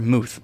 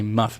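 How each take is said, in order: First: The word ends with a 'th' sound. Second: The word ends with an 'f' sound. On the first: This is the usual pronunciation. "I've heard Muth most of the time" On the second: This pronunciation was heard only once. "there's just no way that's how you say it"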